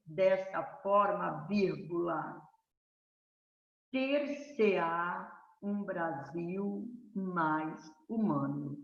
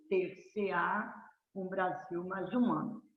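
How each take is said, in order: First: Slow, deliberate dictation, "ter-se-á" drawn out. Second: Said in the usual way. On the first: Shown as a demonstration. Teacher dictates a model essay conclusion to students, slowly. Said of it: "Tá vendo?". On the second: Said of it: "tenho que jogar no meio".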